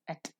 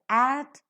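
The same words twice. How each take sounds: First: The vowel is reduced to a weak schwa. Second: The vowel is a full, strong vowel. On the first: The speaker calls it right. "but is pronounced as at" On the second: The speaker calls it wrong. "So it's pronounced not as at"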